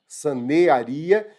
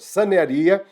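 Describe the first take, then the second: First: The 'ea' vowels are split into two syllables. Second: The 'ea' vowels glide together into one syllable. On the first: The speaker calls it right. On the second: The speaker calls it wrong. "sanearia não, ditongo não"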